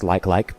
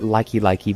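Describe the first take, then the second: First: Each part is the plain word 'like'. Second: Each part ends with an added 'ee' sound. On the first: "Why would it be pronounced like-like?" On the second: "As a child, I pronounced it likey-likey"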